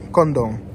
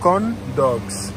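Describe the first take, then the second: First: It is said with an American accent, sounding like condom. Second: It is said with a non-American accent, both words distinct. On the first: "la façon que les Américains prononcent ça" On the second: "Mais pour nous, c'est corn dogs"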